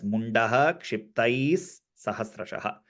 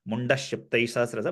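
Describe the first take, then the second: First: The final 'ha' sound after munda is pronounced. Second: The final 'ha' sound after munda is dropped. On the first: "the visargam is explicitly said because it is followed by the letter ksha" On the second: "if it was a normal some other akshara, we would have just gone like"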